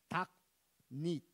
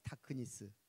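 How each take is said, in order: First: The consonants are clipped with no added vowels. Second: Extra vowels are added between the consonants. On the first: The speaker calls it right. "영어에는 으가 없다고" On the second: The speaker calls it wrong. "우리는 그러잖아"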